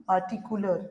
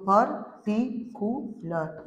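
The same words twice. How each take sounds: First: Said in the usual way. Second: "पर्टिकुलर" slowly as पर, टि, कु, लर; four separate beats on "पर्टिकुलर"; syllable by syllable. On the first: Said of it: "पार्टिकुलर लेंगे". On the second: Shown as a demonstration. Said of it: "यहाँ पे कितना syllable हुआ".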